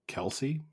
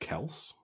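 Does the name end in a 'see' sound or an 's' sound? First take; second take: see; s. First: The name ends with a 'see' syllable. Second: The name ends with a plain 's' sound. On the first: The speaker calls it wrong. "We've been mispronouncing his last name the entire time" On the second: The speaker calls it right. "it's just Kels is how it's supposed to be said"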